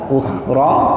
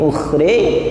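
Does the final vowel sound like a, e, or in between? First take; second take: a; e. First: The final vowel is a plain open a. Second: The final vowel is tilted fully toward e. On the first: "fathah biasa" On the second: "ada yang miring"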